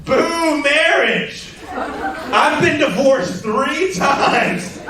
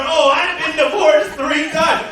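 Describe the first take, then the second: First: Drawn-out, higher mock heckler boo; slow, higher jeer at the comedian from the crowd; heckler's boo. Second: Higher, laughing mock-brag shout; mocking her boast. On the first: Heckler woman booing marriage at a show, slow and higher. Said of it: "And she goes". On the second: Comedian mimicking the divorced heckler, laughing shout.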